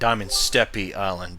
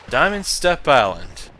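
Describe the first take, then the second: First: The word ends with an extra 'ee' vowel. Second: The word ends with no extra vowel sound. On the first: The speaker calls it wrong. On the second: The speaker calls it right.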